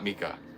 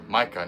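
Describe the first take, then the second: First: The name is said the Japanese way. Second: The name is said the English way. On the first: The speaker calls it wrong. "Mika is the uh, Japanese pronunciation" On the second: The speaker calls it right. "They're pronounced Micah"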